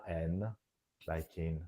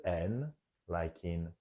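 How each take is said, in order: Both takes have the same delivery.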